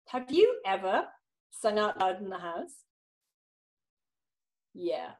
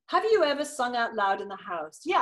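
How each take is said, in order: First: A pause follows the question before continuing. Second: No pause follows the question before continuing.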